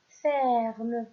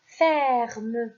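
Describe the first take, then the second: First: Said in the usual way. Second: Ferme said loud and clear for the class; teacher's model word. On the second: Shown as a demonstration. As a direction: pronounce "Ferme" loudly, carefully, for pupils to repeat. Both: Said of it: "on commence avec le premier mot".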